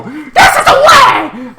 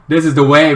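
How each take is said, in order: First: Slow, very high, loud shouted creed; hammed-up shout of the Mandalorian creed; catchphrase shout. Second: Said in the usual way. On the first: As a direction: proclaim it like a battle cry. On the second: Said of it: "This is the way Star Wars should go".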